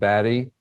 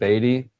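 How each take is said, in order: First: The name sounds like 'batty', with a short a. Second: The name sounds like 'beatty', with a long e. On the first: "from Batty and Beatty" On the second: "from Batty and Beatty"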